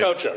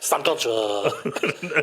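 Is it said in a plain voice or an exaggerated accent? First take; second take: plain voice; exaggerated accent. First: It is said in his plain, normal voice. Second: It is said in an exaggerated Hispanic accent.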